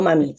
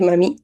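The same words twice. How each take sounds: First: "mami" acentuada en la primera sílaba, MAmi; acento mal puesto. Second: "mami" acentuada en la última sílaba, maMÍ; acento en la I. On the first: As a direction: di "mami" cargando la MA, no la I. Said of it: "eso sí, no mami". ("mami" como palabra llana, MAmi) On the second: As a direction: di "mami" cargando la I final. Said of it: "con acento en la I". ("mami" como palabra aguda, maMÍ) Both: Shown as a demonstration.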